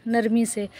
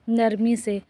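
The two takes are said the same way.

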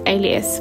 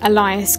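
First: It sounds like the word alias. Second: It sounds like the name Elias. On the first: The speaker calls it right. "but it is Alias" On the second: The speaker calls it wrong. "I did think that it was pronounced Elias Grace"

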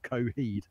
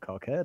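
First: The name has no k sound before the h. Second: The name has a k sound before the h. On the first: The speaker calls it right. "apparently you pronounce it Coheed" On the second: The speaker calls it wrong. "I said, "Hello, Mr. Cockhead"

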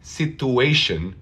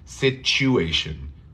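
First: The middle consonant is a plain t sound. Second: The middle consonant is a ch sound. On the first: The speaker calls it wrong. "no se dice situation" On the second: The speaker calls it right. "es como chew"

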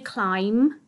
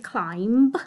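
First: No B sound is heard at the end. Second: A B sound is pronounced at the end. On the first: The speaker calls it right. "So we say climb, but it's got that B on the end that we don't really hear" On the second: The speaker calls it wrong. "We can't hear this B. We don't say climb"

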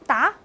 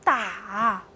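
First: The syllable is said with a rising tone. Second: The syllable is said with a low dipping tone. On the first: It means to answer. "二声答" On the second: It means to hit. "三声打"

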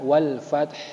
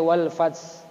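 First: The word ends with a breathy h sound. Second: The word ends with a th sound. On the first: The speaker calls it right. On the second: The speaker calls it wrong.

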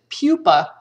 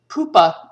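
First: The word is pronounced the English way. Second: The word is pronounced the Latin way. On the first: The speaker calls it wrong. "in English, to say pupa sounds weird, so we don't say that. Instead, we pronounce it pupa" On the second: The speaker calls it right. "If we were going to pronounce it like the Latin, we should say pupa"

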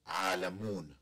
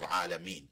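First: The word ends with the syllable 'mun'. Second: The word ends with the syllable 'meen'. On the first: The speaker calls it wrong. "people assume that if I say" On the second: The speaker calls it right. "instead of Alameen"

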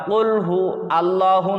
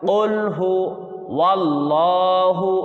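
First: It is said without a w sound before allahu. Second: It is said with a w sound before allahu. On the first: The speaker calls it wrong. "আলিফ দিয়ে নয়" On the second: The speaker calls it right. "ওয়াও দিয়ে"

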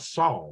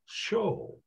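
First: The name begins with an s sound. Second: The name begins with a sh sound. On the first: This is the usual American form of the name. The speaker calls it wrong. "We say Saul because we're Americans" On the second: This is the original form of the name. The speaker calls it right. "actually pronounced Shol"

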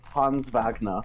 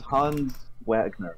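First: The name is said the way the character would. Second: The name is said in the speaker's usual way.

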